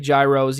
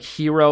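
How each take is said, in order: First: The word is said in an everyday English way. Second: The word is said in its original, foreign-sounding way. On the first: The speaker fits in with ordinary usage. "I know that's not how you pronounce it" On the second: The speaker is trying too hard. "try to say like hero"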